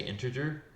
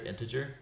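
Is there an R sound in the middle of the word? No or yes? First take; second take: yes; no. First: An extra R sound is added mid-word. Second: No R sound is added mid-word. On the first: The speaker calls it wrong. "I often say integer" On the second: The speaker calls it right. "there's no R there; it's integer"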